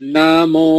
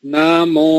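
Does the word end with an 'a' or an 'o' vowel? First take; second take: o; o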